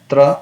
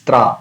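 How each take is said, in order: First: "tra" with a short a; quick short-vowelled "tra"; wrong short vowel. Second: "tra" with a long aa; lengthened "tra", like traa; correct long vowel. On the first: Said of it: "It's not a tra". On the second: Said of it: "it's tra". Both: Shown as a demonstration.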